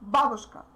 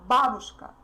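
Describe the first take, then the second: Both takes have the same delivery.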